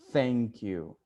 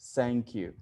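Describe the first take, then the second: First: The first word begins with a th sound. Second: The first word begins with a z sound. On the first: The speaker calls it right. "But that's not the sound, it's thank you" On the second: The speaker calls it wrong. "also use the Z, Z like thank you"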